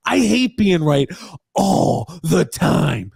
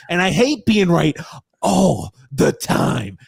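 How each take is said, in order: First: High droning aggrieved whine, very slow; Grump impression. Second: Droning aggrieved whine, slow on the end; Grump impression. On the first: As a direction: stretch "all the time" into a long whine. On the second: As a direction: drag out "all the time" like a sulking pundit. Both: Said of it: "I'm trying to do my Grump impression".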